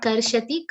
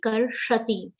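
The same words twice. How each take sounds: First: Karshati with plain sh; wrong pronunciation. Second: Karshati with retroflex sh; correct pronunciation. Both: Shown as a demonstration. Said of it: "not karshati".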